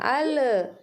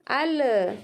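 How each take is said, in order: The two takes are said the same way.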